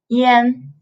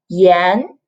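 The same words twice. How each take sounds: First: The syllable is said with a non-second tone. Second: The syllable is said with the second tone. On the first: It means smoke or cigarettes. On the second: It means salt.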